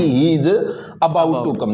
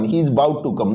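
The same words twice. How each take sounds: First: The first vowel of 'about' is full and clear. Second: The first vowel of 'about' is very short. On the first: The speaker calls it wrong. "नहीं कि" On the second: The speaker calls it right. "अ इसमें बहुत छोटा है"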